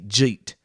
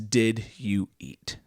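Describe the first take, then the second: First: The words are merged into one syllable. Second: The words are said as separate words.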